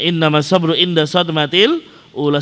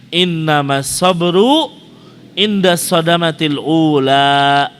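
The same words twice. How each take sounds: First: Said in the usual way. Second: Each word drawn out slowly; slow recitation. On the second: Shown as a demonstration. Preacher reciting the hadith slowly to the congregation.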